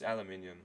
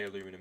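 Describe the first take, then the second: First: It is said the Australian way. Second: It is said the American way. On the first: The speaker calls it right. "That's the correct pronunciation, at least for my demographic" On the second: The speaker calls it wrong. "I didn't mean to say aluminum"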